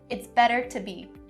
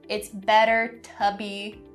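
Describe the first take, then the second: First: The phrase is said quickly and smoothly. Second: The phrase is said slowly and carefully. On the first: The speaker calls it right. "See how fast I did it?" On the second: The speaker calls it wrong. "don't say it's better to be, not correct"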